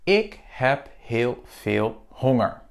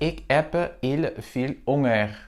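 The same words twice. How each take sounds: First: Each h is clearly breathed out. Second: Each h is dropped, not breathed out. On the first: The speaker calls it right. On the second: The speaker calls it wrong.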